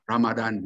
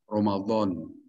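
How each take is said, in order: First: The word has a plain d sound. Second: The word has a heavy, emphatic d sound. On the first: The speaker calls it wrong. "Cuma kita suka ikut-ikutan orang-orang Barat gitu" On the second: The speaker calls it right. "maksudnya O gitu. ... bukan da biasa"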